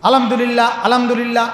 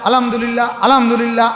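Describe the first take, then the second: Both takes have the same delivery.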